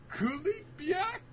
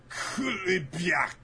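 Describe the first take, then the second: First: "Kulibyak" very high, slow, rising as a question; puzzled attempt at pronouncing. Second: "Kulibyak" drawn out, high then falling; tentative dish-name pronunciation. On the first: Audience member attempts the dish name, "Kulibyak" as squeaky question. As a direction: squeak "Kulibyak" out syllable by syllable, baffled. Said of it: "someone in the audience immediately pronounces it".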